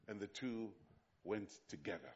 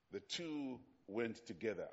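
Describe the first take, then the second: First: Softer, lower, let the words settle; slow reverent reading. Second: Said in the usual way. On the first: Shown as a demonstration. Preacher savoring the Bible line for the congregation, soft and low. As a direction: read it with quiet reverence. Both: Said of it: "I love the way the Bible is written".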